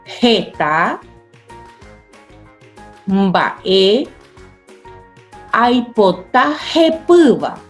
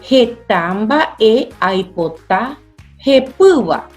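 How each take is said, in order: First: It is read slowly, word by word. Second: It is read at normal speed.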